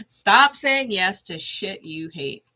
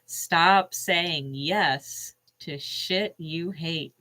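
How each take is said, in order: First: Slowed repeat, hitting STOP; repeated for emphasis. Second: Very slow, each word weighed out; slow card reading. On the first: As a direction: say it again, leaning on stop. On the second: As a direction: read it out slowly like an oracle card. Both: Shown as a demonstration.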